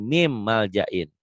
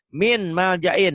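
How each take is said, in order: First: The first word ends with an M sound. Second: The first word ends with an N sound.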